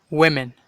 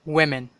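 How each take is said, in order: No difference in how they are said.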